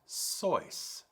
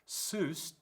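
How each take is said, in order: First: The name rhymes with the word voice. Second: The name rhymes with the word Zeus. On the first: The speaker calls it right. "the correct pronunciation is Seuss, that rhymes with voice" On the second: The speaker calls it wrong. "the majority of people do pronounce it as Doctor Seuss, rhyming with Zeus"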